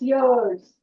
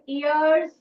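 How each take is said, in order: First: The word starts with a clear y sound. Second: The word starts with a plain vowel sound. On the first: The speaker calls it right. "Y has the year sound, so it's years" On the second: The speaker calls it wrong. "Don't say years. It's wrong pronunciation"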